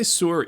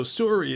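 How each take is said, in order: First: Sorry said the indigenous Anglo-Canadian way; odd Canadian sorry. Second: Said in the usual way. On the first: Shown as a demonstration. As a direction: say sorry with the northern-reserve vowel, higher. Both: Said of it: "say sorry in an odd way".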